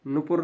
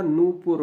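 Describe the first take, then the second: First: नूपुर with a short first vowel, nupur; mispronunciation shown. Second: नूपुर with a long first vowel, noopur; correct form shown. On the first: Teacher showing learners the rejected form, नूपुर said with short nu. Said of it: "नहीं होता". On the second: Teacher giving learners the accepted form, नूपुर said with long noo. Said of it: "होता है". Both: Shown as a demonstration.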